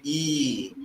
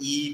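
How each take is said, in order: First: The vowel is held out longer. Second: The vowel is held briefly. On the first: "but you say" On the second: "You don't just say"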